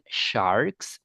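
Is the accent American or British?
American. It is said with an American accent. "with American accent"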